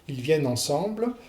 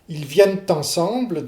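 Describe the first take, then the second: First: Neither the final e nor the t is heard. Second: The t links, but the final e is dropped. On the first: The speaker calls it wrong. "vous faites une, une fausse élision" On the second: The speaker calls it right. "vous apocopez le, le E, mais ... vous prononcez le T de liaison"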